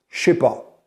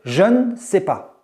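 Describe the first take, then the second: First: The word ne is left out completely. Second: The word ne is reduced to an n sound. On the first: The speech is very informal. "dans un français très informel, dans le français de la rue, on dira plutôt" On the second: The speech is standard. "on va juste prononcer le N"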